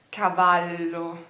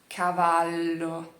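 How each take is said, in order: First: The L is long and held. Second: The same.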